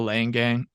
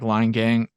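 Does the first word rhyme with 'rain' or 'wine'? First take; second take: rain; wine. First: The first word has the vowel of 'rain'. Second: The first word has the vowel of 'wine'. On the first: The speaker calls it right. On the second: The speaker calls it wrong.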